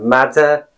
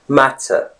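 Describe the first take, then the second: First: The middle consonant is a clear D. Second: The middle consonant is a clear T. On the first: "It's not D. It's not matter" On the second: "that's the typical British pronunciation"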